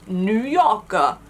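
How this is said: It is said in a New York accent. The speaker calls it right. "You have to say it with the New York accent"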